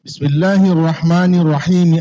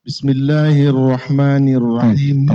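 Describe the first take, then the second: First: Bismillahirrahmanirrahim with an i after each word, bi-smi-lla-hi-rah-ma-ni; wrong recitation. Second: Bismillahirrahmanirrahim with the words joined, no extra vowels; correct recitation. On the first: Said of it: "Tidak boleh dibaca". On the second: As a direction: recite Bismillahirrahmanirrahim slowly, sliding straight from lah into rah. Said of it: "hamzah wasal itu kayak gini nih". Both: Shown as a demonstration.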